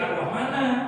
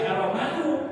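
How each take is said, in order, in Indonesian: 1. Kata ini berakhir dengan vokal a. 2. Kata ini berakhir dengan vokal u. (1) "tidak boleh Ar-Rahmana" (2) "tidak boleh Ar-Rahmanu"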